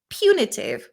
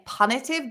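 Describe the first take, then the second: First: The first syllable sounds unlike the start of punishment. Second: The first syllable sounds like the start of punishment. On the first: The speaker calls it right. "we have to change the pronunciation completely" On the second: The speaker calls it wrong. "I still want to say punitive because it comes from the word punishment"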